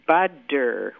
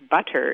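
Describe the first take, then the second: First: The middle consonant is a soft D sound. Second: The middle consonant is a clear T sound. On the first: The speaker calls it right. "it's budder with a D sound" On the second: The speaker calls it wrong. "So butter is not butter"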